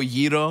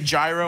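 First: It is pronounced in an authentic Greek-style way. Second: It is pronounced in a plain American way. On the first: "I don't go gyro" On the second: "I say gyro"

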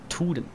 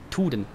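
First: The word begins with a hard T sound. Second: The word begins with a hard T sound.

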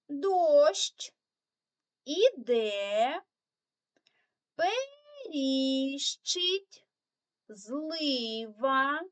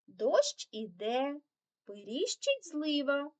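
First: The phrase is read slowly. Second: The phrase is read fast. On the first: "прочитаємо цю скоромовочку разом повільно" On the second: "прочитати цю скоромовочку уже швидше"

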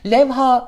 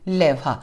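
First: The final a is long. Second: The final a is short. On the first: The speaker calls it wrong. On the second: The speaker calls it right.

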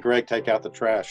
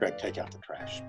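First: It is said in an ordinary speaking voice. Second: It is said in a put-on character voice.

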